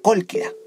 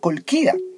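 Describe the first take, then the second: First: The stress is on the first syllable. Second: The stress is not on the first syllable. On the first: The speaker calls it right. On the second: The speaker calls it wrong.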